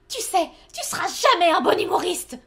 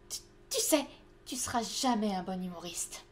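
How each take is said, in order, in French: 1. Elle est dite de façon très exagérée. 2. Elle est dite de façon douce et retenue. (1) "c'est peut-être un peu trop abusé là pour le moment" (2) "Commence soft"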